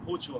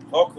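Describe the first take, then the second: First: "Hochul" said with an "oo" first vowel; "Hochul" tried as HOO-chul, unsure; alternative pronunciation. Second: "Hochul" said as HOCK-ul; "Hochul" tried as HOCK-ul, unsure; first guess at pronunciation. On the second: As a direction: say "Hochul" with a short "hock" opening. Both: Shown as a demonstration. Unsure how name is pronounced.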